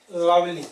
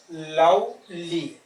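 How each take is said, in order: First: Said in the usual way. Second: "lovely" slow, in two separate beats; split into syllables. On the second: Shown as a demonstration. Teacher counting two syllables, "lovely" slowly divided. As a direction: stretch "lovely" into love, ly. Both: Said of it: "two syllable".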